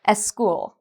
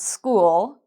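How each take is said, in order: First: An extra vowel sound comes before the s. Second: The word begins directly with the s sound.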